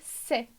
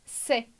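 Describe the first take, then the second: The two takes are said the same way.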